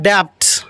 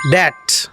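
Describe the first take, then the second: First: "debt" wrongly said as "debt" with a b; mispronounced "debt", b heard before t; sounded b. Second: "debt" said as "det"; "debt", rhyming with "get"; silent b. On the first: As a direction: say "debt" as "debbed", ending b-t. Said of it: "It is not debt". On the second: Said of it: "it is". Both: Shown as a demonstration.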